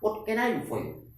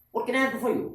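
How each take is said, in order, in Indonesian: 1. Kalimat ini diucapkan dengan kecepatan sedang. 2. Kalimat ini diucapkan cepat. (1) "tiga kali yang kedua ini agak cepat" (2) "Yang ketiga dibaca cepat"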